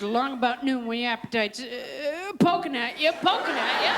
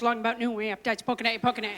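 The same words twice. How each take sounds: First: Plain start building to lilting, animated jingle; inspired audition read with rising flourishes; gifted actress's reading. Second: Lifeless audition reading; rote, monotone line reading; flat read. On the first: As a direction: swing up playfully on each "poking at you". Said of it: "that one gifted woman, that fine actress". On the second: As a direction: read it flat, low and unimpressed. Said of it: "just read it real flat". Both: Acted.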